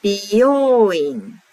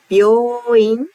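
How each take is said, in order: First: "Byoin" as bi-yo-o-in, five beats; five-mora Byoin. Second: "Byoin" as byo-o-in, four beats; four-mora Byoin. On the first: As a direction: split the start of "Byoin" into bi and yo, then the long o. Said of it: "This is five molars". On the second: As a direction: say "Byoin" with the long o, starting with a quick byo. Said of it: "four molars". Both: Shown as a demonstration.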